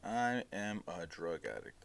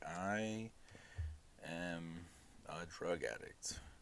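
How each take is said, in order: First: It is said plainly, without drama. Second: It is said in a dramatic way.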